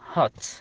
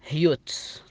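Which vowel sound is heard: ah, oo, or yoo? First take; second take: ah; yoo. First: The vowel sounds like ah. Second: The vowel sounds like yoo. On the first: The speaker calls it right. "تنطق بالفتحة هات" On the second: The speaker calls it wrong. "ولا تنطق هيوت"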